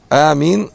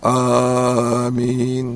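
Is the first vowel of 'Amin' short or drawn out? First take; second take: short; drawn out. First: The first vowel is held for two counts only. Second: The first vowel is stretched out well beyond two counts. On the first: The speaker calls it right. "две огласовки" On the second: The speaker calls it wrong. "нет. Максимум две огласовки в первом"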